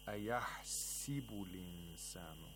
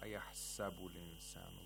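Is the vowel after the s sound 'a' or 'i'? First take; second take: i; a. First: The vowel after the s is 'i'. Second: The vowel after the s is 'a'. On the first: This is the reading of one recitation tradition. "Instead of a fatha, it gives a kasra to the seen" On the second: This is the reading of another recitation tradition. "not ayahsabu linsanu"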